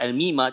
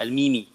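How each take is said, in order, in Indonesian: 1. Kata ini diakhiri dengan vokal a. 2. Kata ini diakhiri dengan vokal i. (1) "Tidak dibaca al-mima" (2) "tidak baca al-mimi"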